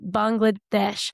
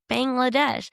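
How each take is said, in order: First: It is said the way local people pronounce it. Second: It is said with a typical American pronunciation. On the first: The speaker calls it right. "They like you pronounce it Bangladesh" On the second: The speaker calls it wrong. "as an American, you're going to come in and be like Bangladesh"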